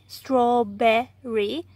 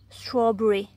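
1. Vyslovuje se s americkým přízvukem. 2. Vyslovuje se s britským přízvukem. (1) "Američani říkají EEF, berry, strawberry" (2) "ale Britové říkají e, strawberry"

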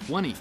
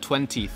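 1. 中间的 t 弱化或省掉了。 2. 中间的 t 发得很清楚。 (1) "我们一般怎么说呢？" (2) "这些t 都发得很清晰"

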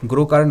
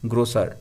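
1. মাঝের ব্যঞ্জনটি একটি k ধ্বনি। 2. মাঝের ব্যঞ্জনটি একটি s ধ্বনি।

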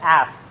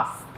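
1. শব্দটি আমেরিকান উচ্চারণে বলা হয়েছে। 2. শব্দটি ব্রিটিশ উচ্চারণে বলা হয়েছে। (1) "আমেরিকানরা বলে অ্যাস্ক" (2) "ব্রিটিশরা বলে আস্ক"

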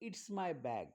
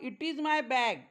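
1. 'it is' आखूड होऊन एका शब्दांशात म्हटले जाते. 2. 'it is' दोन वेगळे शब्द म्हणून म्हटले जाते. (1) "जर आपल्याला इज म्हणायचं नसेल तर" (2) "दुसरं वाक्य तुम्ही असं म्हणू शकतात"

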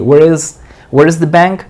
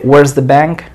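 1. La palabra 'is' se dice como una palabra separada. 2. La palabra 'is' se contrae con 'where'. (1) "Así" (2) "O también podrías decir"

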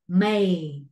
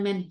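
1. Nguyên âm trượt như ay. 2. Nguyên âm là âm e ngắn. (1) "Đúng khẩu hình miệng" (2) "Người Việt bắt chước là men men men, sai hết"

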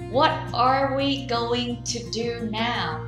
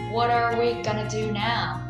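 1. Mỗi từ được nói đầy đủ và tách riêng. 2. Các từ được rút ngắn và nối liền nhanh.

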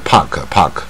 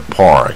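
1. 这个词说的时候不卷舌。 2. 这个词说的时候卷舌很明显。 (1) "如果它不卷舌就是park" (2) "最卷舌是park"

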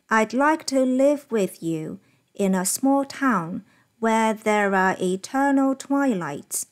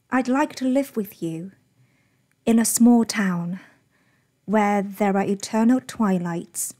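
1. 每个词的轻重和长短大致相同。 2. 关键词要重读，弱读词要念得快。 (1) "通常会使用一种中学早读的方式来念" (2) "而英语本身的这种高低起伏快慢和我们这种豆腐块的方式是非常不一样的"

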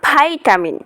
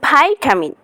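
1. এটা আমেরিকান উচ্চারণে বলা হয়। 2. এটা আমেরিকান উচ্চারণে বলা হয়।

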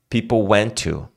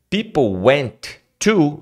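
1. O T de went é omitido. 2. O T de went é claramente pronunciado. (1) "Você tira o T do, do went" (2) "você não consegue falar people went to"

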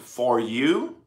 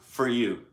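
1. É pronunciado devagar, com uma vogal plena. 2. É pronunciado rápido, com uma vogal reduzida. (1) "se falar mais devagar" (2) "falando mais rápido"

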